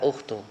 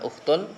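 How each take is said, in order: First: The word ends without a final n sound. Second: The word ends with an added final n sound. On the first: The speaker calls it right. "karena ada ya munada jadi tidak tanwin" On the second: The speaker calls it wrong. "bukan ukhtun"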